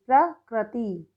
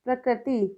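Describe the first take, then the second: First: प्रकृति slowly as "pra, krati"; misspelt reading. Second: Said in the usual way. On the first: Shown as a demonstration. Teacher reads the wrong column, प्रकृति slow in two pieces. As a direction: split प्रकृति after a drawn-out "pra". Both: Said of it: "सही और गलत".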